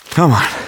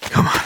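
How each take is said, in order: First: Loud, straining cry of effort; desperate shout. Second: Said in the usual way. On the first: Acted. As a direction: push it out in desperation. Fleeing, straining harder.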